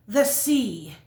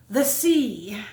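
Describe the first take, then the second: No difference in how they are said.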